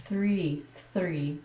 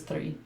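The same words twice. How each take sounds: First: "three" with an effortful R after TH; attempted R in three. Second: "three" with her own tapped R, almost a D; usual three. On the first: Woman trying to say THR properly, careful R in "three". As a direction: push out "three", trying hard for the R. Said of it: "That was, that was close". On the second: Woman showing her unusual pronunciation, tapped R in "three". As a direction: say "three" with a quick rolled R after TH. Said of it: "versus three". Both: Shown as a demonstration.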